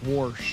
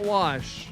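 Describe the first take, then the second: First: The word is said with an r sound. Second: The word is said without an r sound. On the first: This is how people say it where she's from. "it's warsh" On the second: This is the usual way to say it. "it's not wash where she's from"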